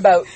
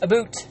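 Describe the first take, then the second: First: The vowel sounds like the one in 'out'. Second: The vowel sounds like the one in 'boot'. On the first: This is how the speakers actually say it. "to make Americans laugh, you need to say out and about" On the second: This is how outsiders imagine the speakers say it. "People think we say aboot"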